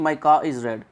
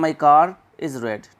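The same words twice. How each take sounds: First: "car is" as "kaa iz", no R between; wrong dropped R. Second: "car is" slowly, R clearly sounded; correct linking R. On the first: Teacher shows how not to say it, dropped R. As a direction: leave the R out of "car" before "is". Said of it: "ऐसे नहीं बोलते हैं". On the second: Teacher shows how it is said there, linking R. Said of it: "वहाँ पे बोलते हैं". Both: Shown as a demonstration.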